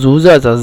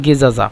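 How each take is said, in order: First: It begins with a 'z' sound and has a 'j'. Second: It begins with a hard 'g' sound.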